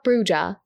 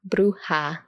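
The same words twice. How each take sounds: First: The middle consonant is an English J sound. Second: The middle consonant is an H sound. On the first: The speaker calls it wrong. "So it's not Bruja" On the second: The speaker calls it right. "So the J has the H sound in English"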